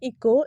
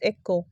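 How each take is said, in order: First: The first vowel is a long 'ee' sound. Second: The first vowel is a short 'eh' sound. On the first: The speaker calls it wrong. "But it's not इको" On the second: The speaker calls it right. "It's एको"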